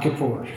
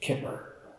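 First: The word is pronounced the English way. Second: The word is pronounced the Hebrew way. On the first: The speaker calls it wrong. "not kippur" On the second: The speaker calls it right. "which in the Hebrew is the word kippur"

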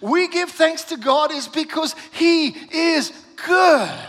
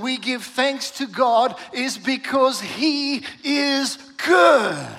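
First: It is said with more passion and energy. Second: It is said in a calm, even manner.

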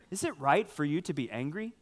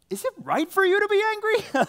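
First: It is read in a plain, neutral tone. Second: It is said in an exasperated, incredulous tone.

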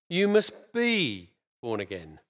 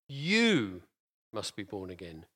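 First: The stress is on "be". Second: The stress is on "you".

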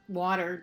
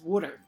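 First: The word is said with a standard pronunciation. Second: The word is said in a Philadelphia accent. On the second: "W-O-O-D-E-R, is the pronunciation"

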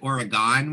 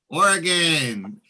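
First: The last syllable is a full 'gone'. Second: The last syllable is a short, reduced 'gun'. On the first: The speaker calls it wrong. "we used to pronounce it Oregon when I was growing up" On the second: The speaker calls it right. "That's the right way to pronounce it"

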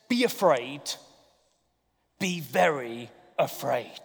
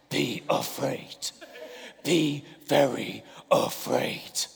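First: It is said in a nice, gentle voice. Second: It is said in a menacing, changed voice.

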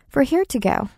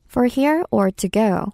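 First: It is said at a faster pace. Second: It is said at a slower pace.

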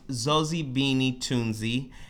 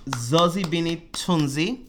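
First: The name is said in a plain voice. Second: The name is said in a put-on accent. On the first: The speaker calls it right. "But it's" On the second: The speaker calls it wrong. "try that without the fake accent"

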